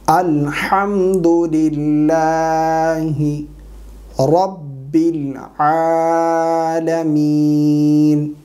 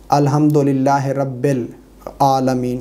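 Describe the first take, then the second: First: الحمدللہ رب as "alhamdulillaahi rabbil", very slow, long-held; correct recitation. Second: الحمدللہ رب as "alhamdolillahe rabbel", with e vowels; wrong recitation. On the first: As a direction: draw out رب العالمین with a clear "rabbil". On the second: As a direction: say رب العالمین as "rabbel aalameen", unstretched. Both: Shown as a demonstration. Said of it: "یہ غلط ہے".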